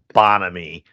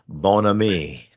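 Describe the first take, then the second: First: The name is said in a Philadelphia way. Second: The name is said in a French-like way. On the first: The speaker calls it wrong. "You're such a Philly guy" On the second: The speaker calls it right. "Bon Ami, not Bon Ami"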